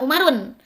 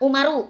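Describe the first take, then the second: First: The word ends with an added n sound. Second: The word ends on a plain u vowel. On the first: The speaker calls it wrong. "ulah Umarun" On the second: The speaker calls it right. "ulah make tanwin"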